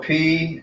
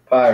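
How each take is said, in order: First: The vowel sounds like the letter 'P'. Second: The vowel sounds like the word 'pie'. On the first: This is the Erasmian pronunciation used in class. "we were going to pronounce it p though" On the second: This is the engineering pronunciation. "the way I learned it in engineering"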